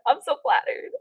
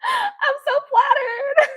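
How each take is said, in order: First: Said in the usual way. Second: Very high, drawn-out wail; overcome with flattery. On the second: Real, not acted. Streamer flattered by a troll, drawn-out delighted squeal.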